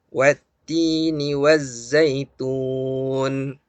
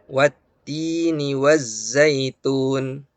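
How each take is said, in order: First: The final long vowel is held moderately long. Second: The final long vowel is held briefly. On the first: "Atau empat harokat" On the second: "Dua harokat ya, satu ayunan"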